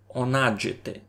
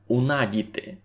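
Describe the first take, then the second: First: The middle consonant is a dzh sound. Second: The middle consonant is a plain d sound. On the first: This dialect keeps the old form of the sound. "видимо його має стару форму дж" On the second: This is how one dialect simplified the old sound. "із того дж обстався лише д"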